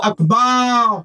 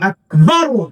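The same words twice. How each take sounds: First: The vowel after 'b' is drawn out long. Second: The vowel after 'b' is kept short. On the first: The speaker calls it wrong. "এই বা এর মধ্যে টান দেওয়া যাবে না, আল্লাহু আকবার বলা যাবে না" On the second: The speaker calls it right. "বলতে হবে আকবার"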